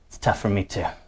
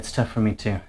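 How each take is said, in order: First: It is said in a put-on tough voice. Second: It is said in a normal voice.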